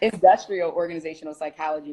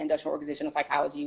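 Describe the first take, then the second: First: It is said slowly and carefully. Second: It is rattled off quickly.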